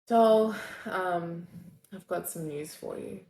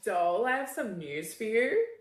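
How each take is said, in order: First: It sounds disappointed. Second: It sounds sarcastic.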